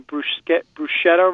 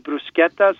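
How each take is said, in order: First: The middle consonant is a soft sh sound. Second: The middle consonant is a hard k sound. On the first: The speaker calls it wrong. "Most of us say bruschetta wrong" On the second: The speaker calls it right. "It's actually bruschetta. ... pronounce it like a K"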